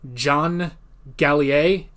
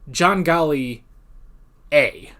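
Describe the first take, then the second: First: The name ends in a blended 'yer' sound. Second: The name ends with a separate 'A' sound. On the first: The speaker calls it wrong. "the guy's name is not John Gallier" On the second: The speaker calls it right. "It's John Galli A"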